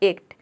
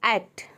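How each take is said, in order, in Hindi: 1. शब्द की शुरुआत अक्षर A के नाम वाले स्वर से होती है। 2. शब्द की शुरुआत आगे के 'ae' स्वर से होती है। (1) "आपने पहले इसे ए प्रोनाउंस किया ए को" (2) "यहाँ पे देखिए आई"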